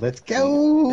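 It imitates C-Mag's little kid's voice.

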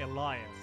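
The name is said with an English pronunciation. "English people don't say that, they say Elias"

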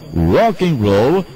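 It is said with a curled-tongue English accent. The speaker calls it right. "Você tem que enrolar a mesma língua"

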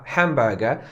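It is said in a British accent. "wymawiane jako hamburger przez Brytyjczyka"

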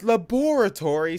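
It is said in a posh-sounding pronunciation. The speaker calls it right. "sounds, you know, posh"

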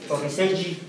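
The name is pronounced the Spanish way. It adapts the name to the local language. "En español sería"

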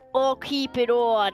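It is spoken in a put-on New York accent.

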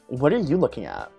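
It is said in a Valley Girl accent.

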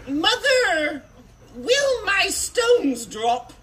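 It is said in a put-on boyish voice.

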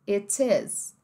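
The T is a crisp stop, British style. "no britânico"

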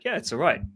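The tone sounds warm and approving. The speaker likes the beer and would recommend it. "the way I say it is kind of like, ... Like I would recommend it"

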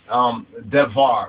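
The middle consonant is a v sound. The speaker calls it wrong.

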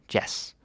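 The vowel is clipped short, Danish style. The speaker calls it right. "It's shorter"

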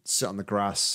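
It is said in a northern English accent. "we say up here"

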